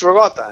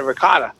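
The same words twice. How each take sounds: First: "ricotta" as ruh-GAH-tha, k softened toward g; husband's Italian-American pronunciation. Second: "ricotta" in standard form, ruh-KAH-duh; wife's pronunciation. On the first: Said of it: "I'm like, "It's ricotta". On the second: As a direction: say "ricotta" with a clear k. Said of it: "my wife busts my balls and she goes". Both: Retold or imitated.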